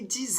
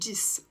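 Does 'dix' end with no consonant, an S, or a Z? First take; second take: Z; S. First: The word ends with a Z sound. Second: The word ends with an S sound. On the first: "prononcer le X comme un Z" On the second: "on va prononcer le X comme un S"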